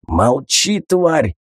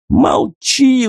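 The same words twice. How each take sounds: First: Rasping snarl of a man just come round; a beaten bandit snarls at the woman, wheezing; wheezed. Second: Much higher, shrill squeal of panic; a cornered thug shrieks at his captive, squealing; shrieking. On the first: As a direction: force it out through a raw throat. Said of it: "прохрипел очнувшийся бандит". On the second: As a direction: squeal it in terror. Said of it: "взвизгнул Тихон". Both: A narrator's reading.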